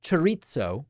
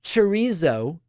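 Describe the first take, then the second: First: Chorizo in a British accent, with a ts sound; Briticized chorizo. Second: Chorizo in an American accent, with a z sound; Americanized chorizo. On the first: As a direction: say chorizo the British way, cher-EET-so. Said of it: "or said in a British accent". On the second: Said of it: "said in an American accent". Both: Shown as a demonstration.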